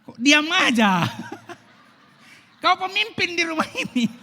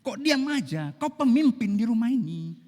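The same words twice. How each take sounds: First: Much higher, shouted nag through laughter; hammed-up nagging wife. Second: Higher, louder scolding question; nagging wife. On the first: Preacher replays the wife's nagging as a laughing mock shout. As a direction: overplay the shrill wife while cracking up. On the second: Acted. Wife scolding the husband who won't answer, raised voice.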